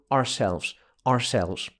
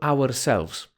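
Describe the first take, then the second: First: The first syllable is reduced, American style. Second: The first syllable is said fully and firmly. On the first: "Amerykanin powie coś w stylu ourselves" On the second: "możesz powiedzieć twardo ourselves"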